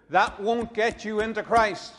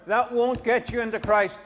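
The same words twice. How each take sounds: First: Rising emphasis on Christ; "Christ" is the peak word, pitch lifting; stress on Christ. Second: "won't" is the peak word in the repeat; stress on won't. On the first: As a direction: lean on the word Christ, let it rise. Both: Shown as a demonstration.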